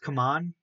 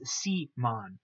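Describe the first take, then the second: First: It is said like the phrase 'come on'. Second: It starts with the letter name 'see'. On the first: The speaker calls it wrong. "I'm not gonna call them come on. That's just confusing" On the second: The speaker calls it right. "No, it's C-mon"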